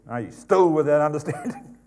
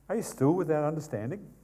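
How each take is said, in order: First: The question is asked in a harsh, impatient tone. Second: The question is asked in a gentle, kind tone. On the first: The question is asked as an impatient rebuke. The speaker calls it wrong. "He'd be probably a little bit more ungracious if he said" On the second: The question is asked with patience and compassion. The speaker calls it right. "He'd be gracious if he said it like that"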